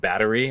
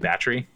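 First: The word is said with three syllables. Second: The word is said with two syllables. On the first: "instead of saying battery" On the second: "becomes a two-syllable word"

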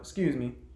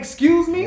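First: It is said softly and politely. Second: It is said loudly and forcefully.

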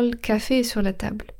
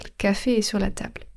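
Both takes have the same delivery.

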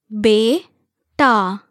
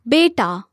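First: The word is said slowly, one syllable at a time. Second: The word is said smoothly at normal speed. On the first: "syllable by syllable" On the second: "one time at natural native speed"

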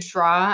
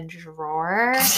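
First: Boston accent, with no r sound at the end. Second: Plain accent, with an r sound at the end. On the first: "people with thick Boston accents" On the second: "you mean the drawer?"

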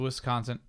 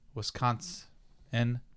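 First: The word ends with an added t sound. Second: The word ends without any t sound. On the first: The speaker calls it wrong. "I'm sorry. Let me pronounce it right" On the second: The speaker calls it right. "there is no T at the end"

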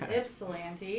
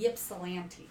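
First: The word begins with an i sound. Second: The word begins with a y sound. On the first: The speaker calls it right. "The Y is silent" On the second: The speaker calls it wrong. "I have been saying it wrong on purpose"

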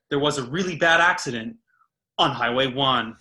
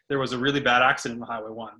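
First: It is spoken in a stylized news-anchor voice. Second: It is spoken in a relaxed, everyday voice. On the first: The speaker calls it wrong. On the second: The speaker calls it right. "just talk normal. ... just say"

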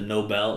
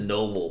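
First: It is said like the 'Nobel' prize. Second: It is said like the word 'noble'. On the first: The name refers to the Swedish prize. "it's the Nobel, like Nobel Prize" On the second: This is how the show pronounces the name. "they pronounce it Noble"

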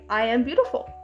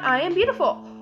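First: The words are spoken at normal volume. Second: The words are shouted loudly. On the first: "Or just talk normally and say" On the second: "I want you to shout"

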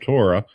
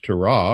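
First: It is pronounced the English way. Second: It is pronounced the Hebrew way. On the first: "or we would call Torah" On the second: "the Hebrew word for law in almost every case is Torah"

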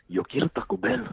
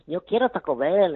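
First: It is said in a quieter, hushed voice. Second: It is said in a full, unhushed voice.

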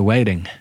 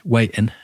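First: The middle T is pronounced like a D. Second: The middle T is replaced by a glottal stop. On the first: It sounds ridiculous. "Or you go with the D and you sound ridiculous" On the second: It is how everyone local says it. "So you can either do a glottal stop, which is waiting"

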